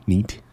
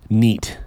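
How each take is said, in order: First: Questioning. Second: Said in the usual way. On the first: Shown as a demonstration. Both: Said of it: "Is that even a word anymore?".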